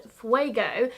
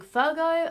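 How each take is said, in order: First: Said in the usual way. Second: Fuego said as "Fur-go"; mispronounced with R. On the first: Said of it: "I actually learned how to say it". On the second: Shown as a demonstration. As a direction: put an R in Fuego, making it "Fur-go". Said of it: "I keep putting an R in it".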